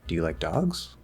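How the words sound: The voice starts low and curves steeply upward. The speaker sounds uncertain. "the question tone on the question"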